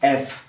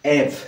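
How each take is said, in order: First: It begins with a vowel, like eff. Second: It begins with a vowel, like eff.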